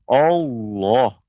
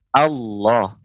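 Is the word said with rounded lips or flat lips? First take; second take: rounded lips; flat lips. First: The word is said with pursed, rounded lips. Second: The word is said with flat, unrounded lips. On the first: The speaker calls it wrong. "Allah itu keliru" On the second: The speaker calls it right. "mulut kita datar, mulut kita tidak memonyongkan"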